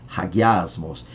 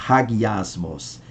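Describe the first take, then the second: The two takes are said the same way.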